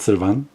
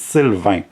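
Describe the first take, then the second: First: Sylvan with a weak English "-vən" ending; English pronunciation. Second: Sylvain with the French nasal "ain", no hard n; French pronunciation. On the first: Speaker contrasts the English version of the name, English pronunciation of Sylvan. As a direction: say Sylvan the English way, final n sounded. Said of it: "It's the English version of my name". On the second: Teaching viewers to pronounce the name, French pronunciation of Sylvain. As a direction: say Sylvain as a French speaker would. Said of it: "don't know how to pronounce it". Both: Shown as a demonstration.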